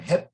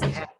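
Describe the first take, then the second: First: The vowel sounds like 'eh'. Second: The vowel sounds like 'ah'. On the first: The speaker calls it wrong. "Instead of hep" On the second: The speaker calls it right. "it sounds like A instead of E"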